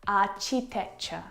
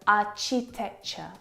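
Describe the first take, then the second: Both takes have the same delivery.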